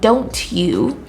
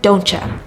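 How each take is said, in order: First: The words are said separately with a full 'you'. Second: The words blend together ending in a reduced 'ya'. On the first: "instead of saying don't you" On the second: "native English speakers say don't ya"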